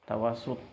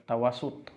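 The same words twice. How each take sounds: The two takes are said the same way.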